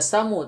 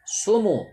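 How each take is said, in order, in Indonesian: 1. Vokal pertama adalah a. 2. Vokal pertama adalah u. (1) "bukan dibaca samu" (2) "tetapi dibaca sumu"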